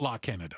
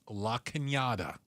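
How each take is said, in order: First: The middle consonant is a plain n sound. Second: The middle consonant is a ny sound. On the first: The speaker calls it wrong. "It's not La Canada" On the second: The speaker calls it right. "it's La Cañada"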